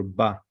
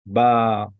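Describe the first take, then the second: First: Ba as a quick "bah"; Ba with a short open "ah"; short vowel. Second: Ba stretched to "baaah"; Ba with a long open "ah"; long vowel. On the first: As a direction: keep the vowel in Ba brief. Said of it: "A, the short one". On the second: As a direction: hold the vowel in Ba. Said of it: "Gadol means long". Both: Shown as a demonstration.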